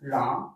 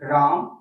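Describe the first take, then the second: First: The word is said fairly softly. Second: The word is said somewhat louder. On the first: The sound carries only a short distance. "आवाज इतने दूर तक गया" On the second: The sound carries somewhat farther. "कुछ दूर तक गया"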